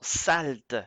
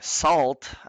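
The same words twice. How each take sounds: First: The word is pronounced the French way. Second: The word is pronounced the English way. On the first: The speaker calls it right. "on le prononce en français" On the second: The speaker calls it wrong. "plutôt que Salt"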